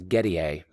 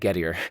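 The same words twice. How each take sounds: First: The name is said in a fancy, pretentious way. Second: The name is said in a plain, unfussy way. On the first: The speaker calls it wrong. "some people pronounce it as Gettier, but that seems to be a little bit pretentious" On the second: The speaker calls it right. "So I'm just going to say Gettier"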